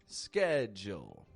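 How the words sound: It begins with an sk sound, American style. "The American accent then takes the D and the U and kind of blends the sounds"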